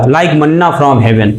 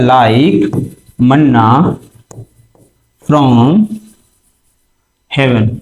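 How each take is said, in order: First: Said in the usual way. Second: Like, manna, from, heaven with long pauses between; dictation pace. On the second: Shown as a demonstration. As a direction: dictate manna from heaven one word at a time. (रुक-रुक कर, एक-एक शब्द बोलते हुए) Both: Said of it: "इसको एक और word दिया जाता है".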